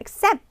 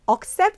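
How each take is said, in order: First: The first vowel is weak and reduced. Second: The first vowel is full and strong. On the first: The speaker calls it right. "약간 애를 약하게 해서" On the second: The speaker calls it wrong. "accept 아니고"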